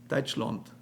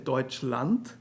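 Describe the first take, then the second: First: The last vowel is a rounded 'aw' sound. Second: The last vowel is an open 'ah' sound. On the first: This is the regional dialect form of the word. "they will say Deutschland, Land. There's the O" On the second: This is the standard form of the word. "they will not say Deutschland"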